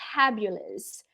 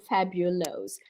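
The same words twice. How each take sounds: First: The final syllable sounds like 'us'. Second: The final syllable sounds like 'os'. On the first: The speaker calls it right. "Much more fluent, much more natural" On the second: The speaker calls it wrong. "e não fabulous"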